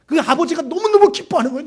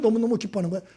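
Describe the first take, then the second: First: 너무너무 said high and loud; 너무너무 stretched out, much higher and louder; stress on 너무너무. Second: Said in the usual way. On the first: Acted. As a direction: punch 너무너무 with delight. Emphatic repeat of joy.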